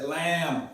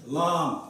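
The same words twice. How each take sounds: First: "lamb" with a front "a" as in "cat"; variant pronunciation. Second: "Lamb" with an open back "ah", like "lahm"; alternative pronunciation. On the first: Teacher showing how some people say the letter, "lamb" with front "a". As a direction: say "lamb" with a flat front vowel, "lam". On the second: Teacher showing one way to say the letter, "Lamb" as "lahm". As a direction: round out "Lamb" with a long "ah". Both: Shown as a demonstration. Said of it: "Some people say lamb".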